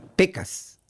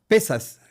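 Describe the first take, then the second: First: The middle consonant is a k sound. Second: The middle consonant is an s sound. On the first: The speaker calls it wrong. "eu não sabia ... Então, eu lia pecas" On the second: The speaker calls it right. "tinha o som como ... dois S"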